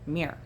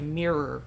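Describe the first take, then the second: First: The word is said in a relaxed, casual way. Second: The word is said with careful, harder enunciation. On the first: "how I pronounce the word mirror" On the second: "If I wanted to enunciate harder"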